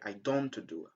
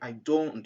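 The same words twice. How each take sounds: First: The t in don't is pronounced. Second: The t in don't is dropped. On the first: The speaker calls it wrong. "it's a, a mistake to say I don't do" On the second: The speaker calls it right. "Just say I don't do"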